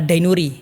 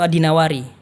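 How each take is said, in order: First: The name is said as Ad-Dainuri. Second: The name is said as Ad-Dinawari. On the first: This is how books usually render it. The speaker calls it wrong. "Kalau di kitab biasanya Ad-Dainuri" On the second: This matches the name of the town. The speaker calls it right. "Yang benar itu Ad-Dinawari"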